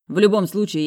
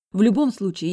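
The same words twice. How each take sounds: First: Said in the usual way. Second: Put-on high, loud girl's voice on В любом случае; В любом случае in the high sister voice; high defiant girl saying В любом случае. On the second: A narrator's reading.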